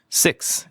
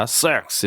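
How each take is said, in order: First: Said in the usual way. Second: "six" stretched with a heavy, distorted vowel; mock exaggerated "six"; over-emphasized SIX. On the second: Shown as a demonstration. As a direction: overdo the stress on "six", nearly "saaks". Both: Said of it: "너무 강조하면은".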